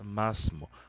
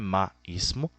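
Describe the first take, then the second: First: The two words are run together. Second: The two words are said separately. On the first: The speaker calls it right. "mas masmo" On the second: The speaker calls it wrong. "Não é ma ismo"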